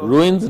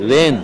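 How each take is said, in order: First: The word is said with a 'roo-ins' vowel sound. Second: The word is said with a 'rain' vowel sound. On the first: The speaker calls it wrong. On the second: The speaker calls it right. "The pronunciation is reins"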